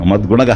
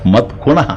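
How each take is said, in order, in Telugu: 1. రెండవ భాగం guna లా వినిపిస్తుంది. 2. రెండవ భాగం kuna లా వినిపిస్తుంది. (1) "గుణ కాదు"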